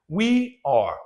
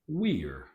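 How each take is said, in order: First: It is said as two full words. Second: It is contracted into one short syllable.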